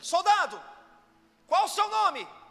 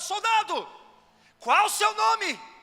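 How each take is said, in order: First: It is asked with less force. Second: It is asked louder and more intensely.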